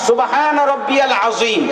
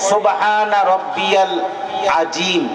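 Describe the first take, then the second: First: The last word has a full, rounded heavy z. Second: The last word has a j sound, not rounded. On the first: It praises the Lord who is great. The speaker calls it right. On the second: The meaning of the phrase changes. The speaker calls it wrong.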